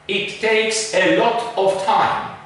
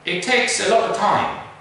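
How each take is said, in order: First: The small words have full, unreduced vowels. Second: The small words are reduced to schwa. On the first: The speaker calls it wrong. "The wrong pronunciation" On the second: The speaker calls it right.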